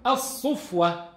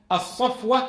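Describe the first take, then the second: First: الصفوة said as as-sufwa with a u after sad; الصفوة with a damma, sufwa. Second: الصفوة said as as-sifwa with an i after sad; الصفوة with a kasra, sifwa. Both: Shown as a demonstration. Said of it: "الفتحة والضمة والكسرة".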